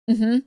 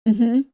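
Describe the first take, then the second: No difference in how they are said.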